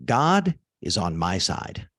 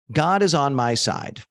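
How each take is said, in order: First: Slow dictation. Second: Said in the usual way. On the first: Shown as a demonstration. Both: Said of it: "Just write down".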